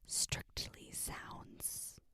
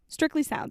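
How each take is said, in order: First: It is said in a soft, whispery ASMR voice. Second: It is said in a plain, normal speaking voice.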